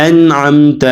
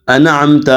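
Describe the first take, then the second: First: انعمت as 'an-amta', n held shut; correct silent nun. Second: انعمت as 'ana-amta', an extra vowel after n; wrong loose nun. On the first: Teacher corrects the students' error, انعمت with held nun. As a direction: close firmly on n in انعمت, no vowel after. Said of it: "جو نون ہے اس کے اوپر ایک ساکن ہے". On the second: Teacher shows students the error, انعمت with loose nun. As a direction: release the n of انعمت too early. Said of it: "اس سے غلط بن جاتے ہیں". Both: Shown as a demonstration.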